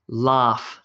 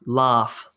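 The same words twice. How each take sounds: Both takes have the same delivery.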